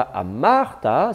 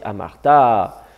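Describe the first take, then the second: First: Amarta said slowly with the stress held back on the middle syllable, the wrong reading. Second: Amarta said slowly with the stress moved down onto the last syllable, amarTA; slow Amarta with the stress on the final ta; correct stress. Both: Shown as a demonstration. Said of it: "l'accent est descendu".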